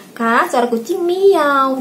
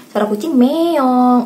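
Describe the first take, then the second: First: "miau" stretched slowly with an open -au ending; cat sound as MIAU. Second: "meong" drawn out slowly with an -ong ending; cat sound as MEONG. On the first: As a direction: teach a child the higher, slow cat call "miau". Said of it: "Jadi kalau saya ajarkan". ("miau" diucapkan panjang dan pelan, berakhir -au) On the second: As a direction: teach a child the slow cat call "meong". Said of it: "suara kucing gimana ya kucingnya". ("meong" diucapkan panjang, berakhir bunyi -ong) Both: Retold or imitated.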